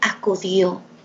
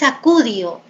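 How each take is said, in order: First: The stress falls on the last syllable. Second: The stress falls before the last syllable. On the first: The speaker calls it right. "sino acudió ... la fuerza de voz está en el último lugar" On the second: The speaker calls it wrong. "no es acudió"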